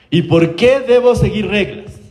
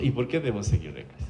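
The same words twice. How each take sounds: First: Higher, slow, drawn-out question; child's challenge. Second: Low, very soft imitated question; understated child's challenge, dropped low and quiet; self-assured child. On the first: Retold or imitated. Un niño de siete años cuestiona en la consulta, desafío imitado. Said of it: "Guagua de siete años en la consulta". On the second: Niño de siete años en consulta, aplomo imitado en voz baja. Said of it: "con una solvencia absoluta".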